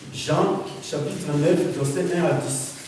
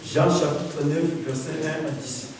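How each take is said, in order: No difference in how they are said.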